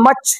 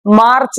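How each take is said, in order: First: "মার্চ" said as "maach"; corrected "মার্চ", vowel straight into ch; silent r. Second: "মার্চ" with an audible r before ch; rejected "মার্চ", r clearly pronounced; r sounded, wrong take. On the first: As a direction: leave the r out of "মার্চ". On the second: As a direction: put the r into "মার্চ". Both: Shown as a demonstration. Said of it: "মার্চ না".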